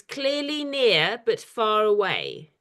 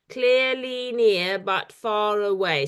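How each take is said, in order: First: Reciting a poem. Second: "Clearly near, but far away" in seven slow beats; syllable by syllable. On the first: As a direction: read it slowly as a line of verse. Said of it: "The second line is". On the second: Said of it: "that's seven syllables". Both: Shown as a demonstration.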